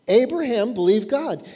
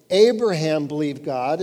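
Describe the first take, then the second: First: Abraham believed God, lifted and stressed on Abraham; Abraham believed God with a touch more force; emphatic restatement. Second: Said in the usual way. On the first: Shown as a demonstration. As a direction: press each word home like a preacher. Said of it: "He had faith in God".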